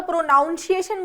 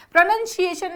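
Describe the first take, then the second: First: प्रोनाउंसिएशन pro-noun-si-ay-shun, demoed as wrong; wrong pronunciation. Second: प्रोनंसिएशन with a short "nun" in the middle; correct pronunciation. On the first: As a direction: say प्रोनाउंसिएशन with "noun" in the middle, the common mistake. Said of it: "तो गलत है". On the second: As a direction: say प्रोनंसिएशन as pro-nun-si-ay-shun, no "noun" sound. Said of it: "ये प्रोनंसिएशन है". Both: Shown as a demonstration.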